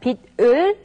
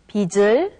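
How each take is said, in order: First: The final consonant keeps its standalone sound. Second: The final consonant changes its sound before 을. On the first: The speaker calls it wrong. "And rather than 빛을" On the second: The speaker calls it right. "it's 빛을"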